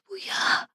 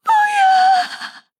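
First: Weak, breath-only sob of refusal; frightened plea. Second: Very high, loud, drawn-out shriek; terrified scream. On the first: Captive begs the attackers to stop, faint gasping plea. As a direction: gasp it softly in dread. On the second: Captive screams as the attackers hold on, piercing shriek. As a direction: scream the refusal in despair. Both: Acted.

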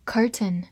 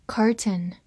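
The two takes are said the same way.

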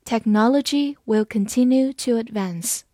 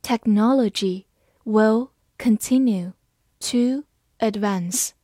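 First: Said in the usual way. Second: Slow, word by word; deliberate teaching pace; slow reading. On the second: Shown as a demonstration. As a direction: read it slowly for learners. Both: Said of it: "好，慢慢来读。".

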